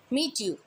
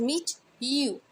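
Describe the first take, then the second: First: Said in the usual way. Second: "meet you" with T turning to CH, "meech-you"; assimilated sounds. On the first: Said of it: "sounds को join करना". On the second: Shown as a demonstration. Teacher demonstrating assimilation, "meet you" said as "meech-you". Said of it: "एक नई sound बन सके".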